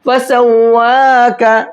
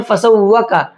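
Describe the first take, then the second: First: Slow फसव्वाका with the vowel after waw held one alif; correct, drawn out. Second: फसव्वाका hurried with the long vowel clipped; rushed, wrong. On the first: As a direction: stretch the वा in फसव्वाका properly. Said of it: "कैसे पढ़ेंगे". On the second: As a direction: say फसव्वाका too fast, the way people get it wrong. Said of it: "इसको जल्दी पढ़ देते हैं". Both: Shown as a demonstration.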